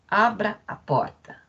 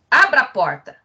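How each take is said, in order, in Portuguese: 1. É dito com tom gentil, pedindo. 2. É dito com tom firme, dando ordem. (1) "pelo tom de voz, ou seja, pela comunicação não verbal, indica uma ideia de simetria, de igualdade" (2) "cometimento de diferença, comunicado também de forma não verbal, que indica, né, a ideia de ordem"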